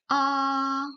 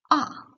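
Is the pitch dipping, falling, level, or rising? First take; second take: level; falling. First: The pitch stays high and level. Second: The pitch falls sharply from high to low. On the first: "Le premier ton, O est plat. C'est une voix stable" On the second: "un ton bref et fort qui tombe du haut vers le bas"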